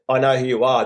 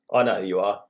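First: Said in the usual way. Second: A cold, curt quote of a rival; unfriendly. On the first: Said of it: "When he said". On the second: Retold or imitated. Co-host mimics the quote as sounding hostile. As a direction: make it sound a bit hostile. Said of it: "It didn't sound very friendly".

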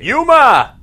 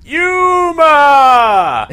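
First: Calling out a name, loud. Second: Long, high, loud call; shouting. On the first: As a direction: yell the name across a room. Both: Retold or imitated. Imitating the movie's shouted cat name.

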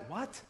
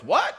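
First: Very soft, questioning "what?"; hushed disciple's whisper. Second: Voiced "what?" with a sharp rise; startled Peter. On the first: Retold or imitated. Disciples reacting among themselves to Jesus' words, hushed. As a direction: murmur it in startled confusion among friends. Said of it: "they start whispering among themselves". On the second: Peter in the back overhearing the news, startled. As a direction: call out in disbelief from the back. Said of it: "Peter in the back goes".

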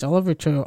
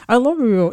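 First: Low, grudging words pushed through gritted teeth; through clenched teeth. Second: Said in the usual way. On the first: Retold or imitated. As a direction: force it out between clenched teeth. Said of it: "says it through clenched teeth". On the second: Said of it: "What did you say?".

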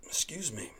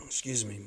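First: Whispered. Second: Said in the usual way. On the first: Real, not acted. Apologizing to listeners again, whispered. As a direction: Excuse me in a soft voiceless whisper.

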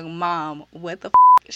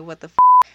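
First: Loud mock outrage on the last words; imitated shocked protest. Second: High, loud shocked yelp of disbelief; shocked outburst. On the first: The roommate protesting to her mom, mock loud shock. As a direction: play the stunned daughter protesting to her mom. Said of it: "She's looking like". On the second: Retold or imitated. Seeing the new roommate walk in, a loud shocked outburst. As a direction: blurt it out, stunned and loud. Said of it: "just like I'm looking like".

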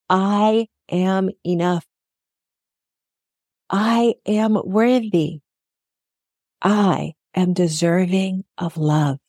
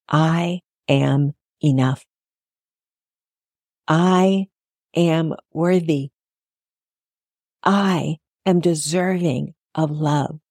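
First: Slow, steady affirmations said along. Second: Slow, calm affirmations. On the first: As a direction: say them slowly with the listener. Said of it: "Come on, you can say it with me". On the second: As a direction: speak each line slowly and sincerely. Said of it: "Repeat after me". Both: Shown as a demonstration.

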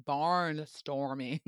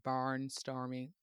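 First: "barnstorming" stretched out slowly; drawn-out repeat. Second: Said in the usual way. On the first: Real, not acted. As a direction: puzzle over "barnstorming", dragging each part. Puzzles over unfamiliar word, repeated.

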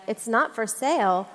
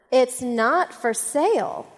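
First: Said in the usual way. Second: Slow, deliberate, arms-crossed no; firm refusal. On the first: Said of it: "puzzled, and she was like". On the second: Retold or imitated. The lady shutting down the golf cart question, slow and firm. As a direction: lay down the law, word by word. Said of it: "crossed her arms and she just looked at me".

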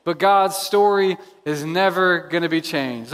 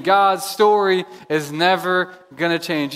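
First: Said in the usual way. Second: Slower, every word weighted; slow emphatic restatement. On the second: Shown as a demonstration. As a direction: say it again slowly and firmly. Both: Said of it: "Let me say that again".

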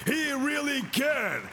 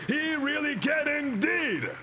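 First: Said in the usual way. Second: Higher, slow and ringing declaration; preaching shout. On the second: Shown as a demonstration. Preacher repeating himself to the congregation, shouting. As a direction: proclaim it to the back row. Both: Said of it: "I said".

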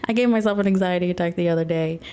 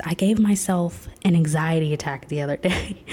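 First: Rattled off fast, a bit embarrassed; quick repeat. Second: A laugh breaking into the confession. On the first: Repeating her anxiety attack confession to viewers, fast and rushed. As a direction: blurt it out again quickly. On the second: Telling viewers about her anxiety attack, half laughing. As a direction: admit it with a sheepish laugh. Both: Real, not acted. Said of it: "repeats the line".

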